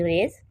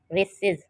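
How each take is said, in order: First: Said in the usual way. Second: रेसेस with a clear added iz syllable at the end; iz ending stressed. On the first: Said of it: "रेस, R A C E". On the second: Shown as a demonstration. Teacher shows the plural ending to students, carefully. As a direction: lean on the final iz of रेसेस. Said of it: "रेसेस, इज".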